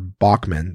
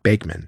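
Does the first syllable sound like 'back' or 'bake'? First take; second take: back; bake. First: The first syllable sounds like 'back'. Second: The first syllable sounds like 'bake'. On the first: This is how most people say the name. "the world would pronounce Bachman as if it were Bachman" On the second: This is how the family says the name. "the family pronounced it Bakeman"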